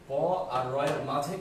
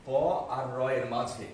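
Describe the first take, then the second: No difference in how they are said.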